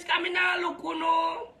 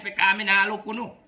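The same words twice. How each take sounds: First: Shouting. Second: Said in the usual way. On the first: Real, not acted. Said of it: "repeats phrase shouted". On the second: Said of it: "repeats phrase".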